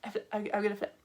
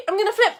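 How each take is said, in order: First: Quiet repeat. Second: Excited high-pitched warning to viewers; loud announcement. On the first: Teacher repeating her flip warning to viewers, quiet and halting. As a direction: say it under your breath, stumbling slightly. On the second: Teacher warning the viewers she is about to flip, loud announcement. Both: Real, not acted.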